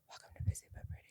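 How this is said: It is spoken in a whisper.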